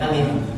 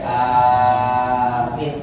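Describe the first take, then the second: First: Both vowels are short. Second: Only the first vowel is long. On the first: The speaker calls it wrong. "Hamzahnya pendek, mimnya pendek" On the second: The speaker calls it right. "Hamzahnya panjang, mimnya pendek"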